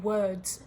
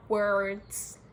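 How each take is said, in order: First: Said in the usual way. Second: WORDS in an American accent, hard R drawn through it. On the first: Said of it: "the words I'm saying". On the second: Shown as a demonstration. Mocking people who think they turned American, American-accented WORDS. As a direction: say "words" the American way, R fully sounded. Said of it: "I don't speak like that".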